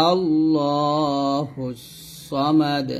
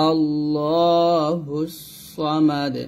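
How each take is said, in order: No difference in how they are said.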